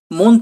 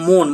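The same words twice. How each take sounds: First: মন with open "aw", said slowly; মন with an unshifted অ; open vowel. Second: মন with rounded "oh", said slowly; মন with ও after the m; vowel shifted to O. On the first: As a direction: say মন slowly as "mawn". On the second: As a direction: say মন slowly as "mon". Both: Shown as a demonstration. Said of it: "ময় ওকা".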